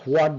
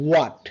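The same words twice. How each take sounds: First: WHAT with an audible h before the w; common local pronunciation. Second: WHAT with a silent h, starting on w; British pronunciation. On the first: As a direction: say what as "hwat". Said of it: "আমরা what বলি". (what-এর শুরুতে হ-ধ্বনি দিয়ে প্রচলিত উচ্চারণ) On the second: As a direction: punch out a crisp British "wot". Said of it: "but in a British sound". (what-এর হ বাদ দিয়ে British উচ্চারণ "ওয়ট") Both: Shown as a demonstration.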